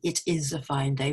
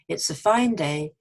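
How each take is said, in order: First: 'It is' is said as two full words. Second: 'It is' is contracted to one syllable. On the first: The speaker calls it wrong. "for those of you who tend to say, it is a fine day, we don't" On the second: The speaker calls it right. "We say"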